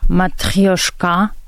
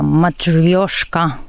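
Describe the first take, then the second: First: The stress is on the last syllable. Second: The stress is not on the last syllable.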